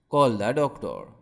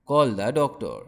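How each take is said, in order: Both takes have the same delivery.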